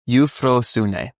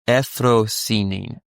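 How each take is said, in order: First: The opening diphthong is kept as a glide. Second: The opening diphthong is reduced to a plain vowel. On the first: "is like the root" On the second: "they choose the other pronunciations"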